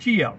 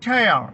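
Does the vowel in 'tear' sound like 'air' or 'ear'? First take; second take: ear; air. First: The vowel sounds like the word 'ear'. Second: The vowel sounds like the word 'air'. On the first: It means a drop from the eye. "ടിയർ എന്ന് ഉച്ചരിക്കുമ്പോൾ കണ്ണുനീരെന്നും" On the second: It means to rip. "ഇങ്ങനെ ഉച്ചരിക്കുമ്പോൾ അതിന്റെ അർത്ഥം കീറുക"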